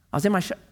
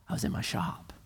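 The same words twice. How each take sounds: First: Said in the usual way. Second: "I was in my shop" whispered, as if it dawns; awed whisper. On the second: Shown as a demonstration. Preacher whispering the line as a grateful realization. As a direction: breathe it out in wonder. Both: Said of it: "Think about a year ago".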